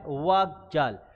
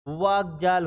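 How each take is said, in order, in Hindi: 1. पहले शब्द का अंत क की ध्वनि से होता है। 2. पहले शब्द का अंत ग की ध्वनि से होता है। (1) "इसकी अंतिम ध्वनि कै" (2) "कै है वो गै में बदल जाता है"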